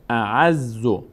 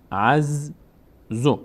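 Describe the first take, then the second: First: Said in the usual way. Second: اعزو said very slowly, z held double; slow doubled z. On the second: Shown as a demonstration. Teacher repeats اعزو slowly to show the doubling. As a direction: draw out اعزو with a long doubled z. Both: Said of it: "یک بار به همراه ما قبل بعد خوانده بشه".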